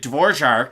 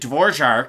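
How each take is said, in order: First: The name is said with a Czech pronunciation. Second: The name is said with a Czech pronunciation.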